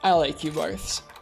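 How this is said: It is said through a yawn, slurred. The speaker calls it wrong. "I was yawning at the time"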